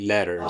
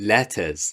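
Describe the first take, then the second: First: It is said with an American accent. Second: It is said with a British accent. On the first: "In American we say letters" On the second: "In British English we say letters"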